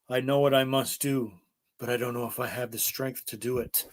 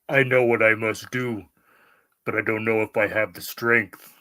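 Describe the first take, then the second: First: It is said in his normal voice. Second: It is said in a Kylo Ren voice.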